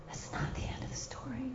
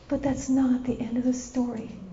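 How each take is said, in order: First: Hushed, voiceless repeat; whisper. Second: Said in the usual way. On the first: Real, not acted. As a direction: whisper it to let it sink in.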